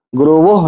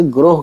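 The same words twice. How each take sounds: First: ग्रोवोह said as the wrong reading, with a sounded वो in the middle. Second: ग्रोह said in one syllable, with no वो sound; correct reading. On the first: Teacher showing students the wrong Urdu reading, ग्रोवोह with a full वो. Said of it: "ग्रोवोह नहीं कहेंगे". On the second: Teacher showing students the right reading, ग्रोह as one syllable. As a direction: say ग्रोह short and clean, as one beat. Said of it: "ग्रोह कहेंगे". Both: Shown as a demonstration.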